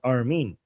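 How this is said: The name is said with a Persian pronunciation. This is the name used in Persian. "My Persian name is Armin"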